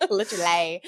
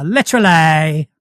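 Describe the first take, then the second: First: Essex accent. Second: Essex accent leaning on the ending of literally. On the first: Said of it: "Yeah, I can do that". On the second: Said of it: "so for an Essex accent". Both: Shown as a demonstration.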